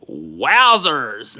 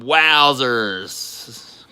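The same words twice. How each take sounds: First: Said in the usual way. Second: "wowzers" breathed out in a whisper. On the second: Real, not acted. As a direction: hush it like a secret, awed. Whispers wowzers after saying it.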